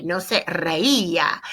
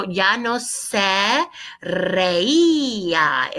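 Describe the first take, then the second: First: No se reía said slowly; slow model. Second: Ya no se reía, very slow and drawn out; reía with the stress on the í; slow model answer. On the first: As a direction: spell the sound of reía out slowly. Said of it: "notice there's three noisy vowels". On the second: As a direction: model reía, each syllable stretched. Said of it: "is our answer". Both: Shown as a demonstration.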